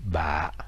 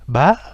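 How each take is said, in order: First: The syllable is said with a very low heavy tone. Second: The syllable is said with a steadily rising tone. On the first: "avec un accent très grave" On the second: "avec un accent aigu"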